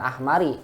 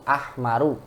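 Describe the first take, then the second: First: The word ends with an 'ee' vowel. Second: The word ends with an 'oo' vowel. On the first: The speaker calls it wrong. "bukan ahmari" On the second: The speaker calls it right.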